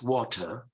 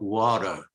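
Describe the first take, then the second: First: The middle T is a clear T sound. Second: The middle T sounds like a soft D. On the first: "in British English, it's water" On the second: "when the T is between two vowels, they pronounce it like D"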